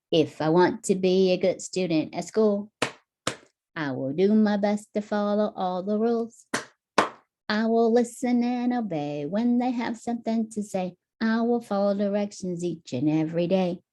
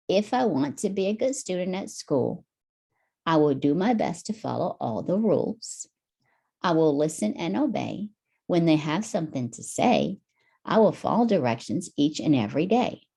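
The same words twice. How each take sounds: First: Same words sung higher, lilting; sung to a nursery tune. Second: Steady, even reading of the lines; reading the verse. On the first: Hero singing the rules song for Tommy, sung. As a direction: sing it like a kids' clapping song. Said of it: "and then sing it". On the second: Hero reading the song lyrics to Tommy, even read. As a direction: read the rhyme through clearly once. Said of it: "Read it first". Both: Shown as a demonstration.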